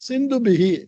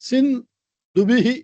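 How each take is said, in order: First: The word is said whole without a break. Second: The word is broken into two parts. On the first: The speaker calls it right. "முழுசா அப்படி ஒரே வார்த்தையா சொல்லணும்" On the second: The speaker calls it wrong. "அப்படி சொல்லக்கூடாது"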